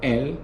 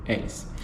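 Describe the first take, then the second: First: The word ends without an S sound. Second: The word ends with an audible S sound. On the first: The speaker calls it right. "we don't pronounce the S" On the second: The speaker calls it wrong. "I'm not going to say elles"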